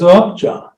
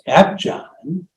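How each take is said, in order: First: The first vowel sounds like 'u' in up. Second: The first vowel sounds like 'a' in apple. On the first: This is the Welsh way of saying the name. "The Welsh actually pronounce it as Upjohn" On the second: This is the English way of saying the name. "the English would pronounce this spelling as Apjohn"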